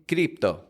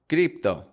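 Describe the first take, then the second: The two takes are said the same way.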